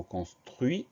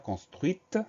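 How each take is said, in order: First: Construit ending on the "i" sound, T left silent. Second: Construite with a clearly released T at the end; sounded T. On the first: Teacher has pupils listen closely to the word, silent final T. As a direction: say "construit" with no T heard at the end. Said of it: "il y a une lettre muette". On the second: Teacher puts the word in the feminine, final T pronounced. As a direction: let the final T of "construite" be heard. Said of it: "on entend ce T muet". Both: Shown as a demonstration.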